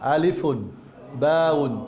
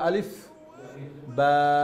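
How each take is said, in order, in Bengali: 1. প্রতিটি অক্ষরের নামের শেষে একটি 'un' ধ্বনি যোগ করা হয়। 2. প্রতিটি অক্ষরের নাম কোনো শেষ ছাড়াই হঠাৎ থেমে যায়। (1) "আরবি উচ্চারণটা দেখেন" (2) "থামলে কি হবে"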